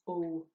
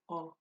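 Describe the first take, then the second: First: The vowel is held long. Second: The vowel is cut short. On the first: The vowel carries an accent mark. "when we put the fada on it, it becomes O" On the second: The vowel has no accent mark. "it's shorter. It's just like O"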